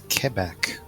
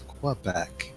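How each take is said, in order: First: Quebec is said the way locals say it. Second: Quebec is said the way outsiders say it. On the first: This is the form used inside the place itself. "It's Quebec, but only if you're in Quebec" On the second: This is the form used everywhere else. "Otherwise, it's Quebec"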